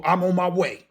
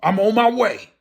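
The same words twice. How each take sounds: First: Said in the usual way. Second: Louder, higher proclamation; emphatic declaration. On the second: Shown as a demonstration. Preacher voicing what his roar tells people, loud declaration. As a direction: belt it out as a warning. Repeats roar's message forcefully.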